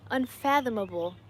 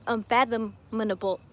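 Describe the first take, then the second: First: Unfathomable said cleanly as "un-FATH-um-uh-bul"; careful unfathomable, no extra "nuh"; corrected pronunciation. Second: Tongue-tripped unfathomable, one syllable too many; mispronounced word. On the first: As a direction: get unfathomable out in five clean syllables. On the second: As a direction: stumble on unfathomable with an extra "nuh" syllable. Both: Real, not acted. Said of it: "There we go".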